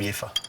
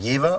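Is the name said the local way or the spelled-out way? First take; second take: local; spelled-out. First: The name has the town's own local pronunciation. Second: The name is read plainly as it is spelled. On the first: It names the town. "although it is from Jever" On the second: It names the beer. "they changed the name of the beer to Jever"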